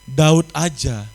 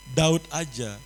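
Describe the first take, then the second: First: Emphatic. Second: Said in the usual way. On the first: Real, not acted. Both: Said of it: "repeated for emphasis".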